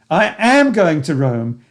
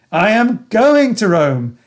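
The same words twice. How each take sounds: First: Am punched, slow and steady; slow affirmation, am stressed. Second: Going pushed high and loud, slow; rising excitement on going; higher, louder affirmation with going stressed. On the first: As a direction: hit the word am to insist. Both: Shown as a demonstration. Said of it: "my affirmation in all its variations".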